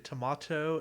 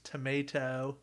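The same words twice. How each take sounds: First: The word is said in a British accent. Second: The word is said in an American accent. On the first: "if I want to talk in a British accent, I say tomato" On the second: "if I want to be American, it's tomato. It's very uncultured"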